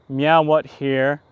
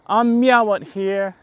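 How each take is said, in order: First: Loud, slow mock streamer voice, drawn out; Action Kid impression. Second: Higher and loud, slow mock streamer voice; Action Kid impression. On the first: Vlogger imitating his streamer buddy, loud and slow. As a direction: lean on meow and stretch it like his buddy. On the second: Vlogger mimicking his buddy's catchphrase, high and loud. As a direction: pitch it up and stretch the meow playfully. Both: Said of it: "That's probably something he would say".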